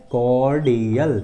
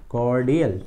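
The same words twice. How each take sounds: First: कॉर्डियल stretched out slowly, syllable by syllable; teacher slowly spelling out the sound of कॉर्डियल. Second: Said in the usual way. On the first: Shown as a demonstration. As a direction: draw कॉर्डियल out long for learners. Teacher sounding out new word.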